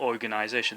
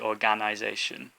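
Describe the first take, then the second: First: The vowel after the g is a reduced uh. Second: The vowel after the g is a full a. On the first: The speaker calls it right. "It's like a g uh sound" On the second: The speaker calls it wrong. "you don't say organisation"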